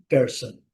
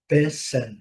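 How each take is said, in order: First: "person" American style with the R sounded; American pronunciation. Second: "person" British style, R silent, long first vowel; British pronunciation. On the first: Teacher contrasting American English for students, R-coloured demo. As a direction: say American "person", clear R before the S. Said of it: "E no inglês americano". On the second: Teacher contrasting British English for students, R-less demo. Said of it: "no inglês britânico". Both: Shown as a demonstration.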